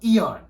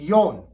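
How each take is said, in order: First: The name begins with an ee sound. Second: The name begins with a y sound. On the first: The speaker calls it wrong. "not Eon" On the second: The speaker calls it right. "It's Yon"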